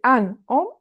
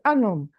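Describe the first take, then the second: First: The two words are said apart, without a link. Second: The two words are joined with a linking sound. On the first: The speaker calls it wrong. "You don't say" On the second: The speaker calls it right. "All together"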